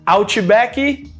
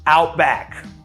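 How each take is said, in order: First: An extra vowel sound follows the final consonant. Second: The word ends on the final consonant. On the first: The speaker calls it wrong. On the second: The speaker calls it right. "No, Outback"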